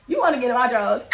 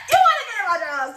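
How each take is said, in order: First: Said in the usual way. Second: High, laughing tease; laughing repeat. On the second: Real, not acted. Teller repeats the joke to herself, laughing and high. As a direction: tease through laughter, pitch jumping up.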